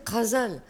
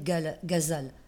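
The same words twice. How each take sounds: First: The word begins with a throaty back sound. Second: The word begins with a plain g sound. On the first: Everyone said it this way a century ago. "Tout le monde disait ghazal" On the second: Nobody said it this way a century ago. "Personne disait ghazal"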